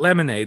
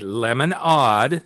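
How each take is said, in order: First: The last syllable sounds like 'aid'. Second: The last syllable sounds like 'odd'. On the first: The speaker calls it wrong. "So not lemonade" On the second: The speaker calls it right.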